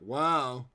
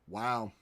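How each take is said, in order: First: It is said with lively, excited enthusiasm. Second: It is said flatly, without enthusiasm. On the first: "but it was like" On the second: "I know my wow didn't sound like it was"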